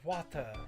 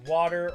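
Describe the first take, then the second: First: It is said in a British accent. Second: It is said in an American accent. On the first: "U K" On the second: "I'll say it like U S"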